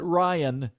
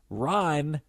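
First: The name is said in two syllables. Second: The name is said in one syllable. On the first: The speaker calls it wrong. "not Ryan" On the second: The speaker calls it right. "Ryan has one"

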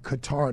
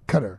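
First: It is said the way it is spelled. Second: It is said like the word 'cutter'. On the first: This is the plain English reading of the name. "the way you read it in English sound looks like Qatar" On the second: This is the fashionable way to say the name. "the cool hip people say cutter"

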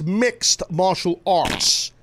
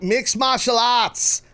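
First: It is said in a neutral accent. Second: It is said in a thick Boston accent. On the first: The speaker calls it right. "It rhymes with fart" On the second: The speaker calls it wrong. "when you let that sludgy Boston tone come out of your mouth"

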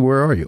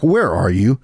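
First: It is said in a relaxed, chatty way. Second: It is said in an urgent, worried way.

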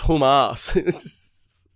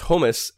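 First: The second syllable sounds like 'ass'. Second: The second syllable sounds like 'us'. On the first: The speaker calls it wrong. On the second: The speaker calls it right.

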